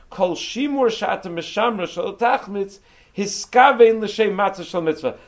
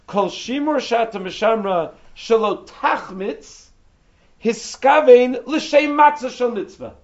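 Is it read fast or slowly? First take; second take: fast; slowly. First: It is read at a faster pace. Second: It is read at a slower pace.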